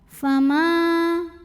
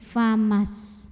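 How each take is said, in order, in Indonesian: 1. Vokal akhir dibaca panjang sebelum bunyi henti. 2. Vokalnya pendek dan menyambung ke 's'. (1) "Dibacanya panjang jika berhenti dua harokat" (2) "Mimnya pendekin"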